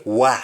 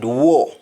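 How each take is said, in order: First: "wa" said WAH, open vowel; "wa" with unrounded ah; Jamaican ah form. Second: "war" said with rounded aw; "war" as WAW, lips rounded; English aw form. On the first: Teacher showing what Jamaicans say, "wa" as wah. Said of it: "we say wa". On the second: Teacher giving the word to replace, "war" as waw. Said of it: "instead of the word war". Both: Shown as a demonstration.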